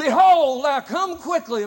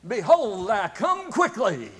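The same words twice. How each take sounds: First: High, loud preaching shout; full preacher's shout. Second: Raised, slow preacher's call; louder preacher's call. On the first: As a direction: belt it from the pulpit. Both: Retold or imitated. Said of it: "this time he really gets in there".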